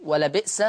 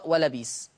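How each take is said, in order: First: "ولبئس" as wa-la-bi'sa; original hamza. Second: "ولبيس" as wa-la-biis; long ii before the s in "ولبيس"; hamza turned to yaa. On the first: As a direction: glottal stop before the s in "ولبئس". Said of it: "تقرأ". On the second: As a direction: replace the catch with ii in "ولبيس". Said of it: "بإبدال الهمز الساكن". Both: Shown as a demonstration.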